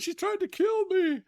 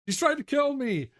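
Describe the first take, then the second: First: It is said in a put-on character voice. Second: It is said in the speaker's natural voice.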